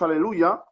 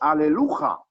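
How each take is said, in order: First: The last consonant is a soft Y sound. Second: The last consonant is a harsh throaty J. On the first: The speaker calls it right. "Hay que pronunciarlo con una Y" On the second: The speaker calls it wrong. "no decimos aleluja"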